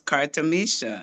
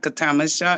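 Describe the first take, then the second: First: The stress falls on the third syllable. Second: The stress falls before the third syllable. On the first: The speaker calls it right. "the emphasis is on the third syllable" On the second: The speaker calls it wrong. "It's not Katamisha"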